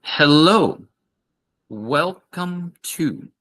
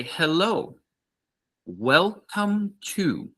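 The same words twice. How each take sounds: First: High, very slow welcome, each word clear; slow repeat. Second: High, slow, clear shop greeting; slow model greeting. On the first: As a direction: drill it slowly for the class. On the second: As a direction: say it slowly for learners to copy. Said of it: "we would say". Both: Shown as a demonstration.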